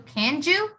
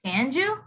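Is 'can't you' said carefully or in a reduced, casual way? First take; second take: reduced; reduced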